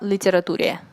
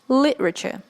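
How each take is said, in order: First: The ending is read out as spelled, 'ture'. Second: The ending is pronounced like 'cher'. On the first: The speaker calls it wrong. "It's not литературе, как некоторые говорят" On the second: The speaker calls it right. "It's literature"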